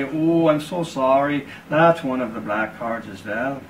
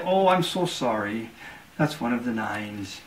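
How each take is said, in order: First: A sly, hammed-up sorry; mock apology. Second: Slow, softer fake regret that sinks at the end; sly, dropping sorry; mock apology. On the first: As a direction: fake sorrow, slow on the "Oh". Cardsharp feigns regret, taking money. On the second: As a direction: gloat behind a sorry. Cardsharp feigns regret, final bet.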